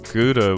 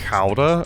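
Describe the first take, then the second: First: It is said with the common English pronunciation. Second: It is said with an attempted Dutch pronunciation. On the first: The speaker calls it wrong. "a lot of people say Gouda with this" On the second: The speaker calls it right. "it's like Gouda or something like that is how you, is how you pronounce it"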